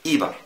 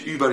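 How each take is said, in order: First: The first vowel is an unrounded i sound. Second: The first vowel is a rounded ü sound. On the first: The speaker calls it wrong. "يقولك ايبر" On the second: The speaker calls it right. "ما يقولكش ايبر"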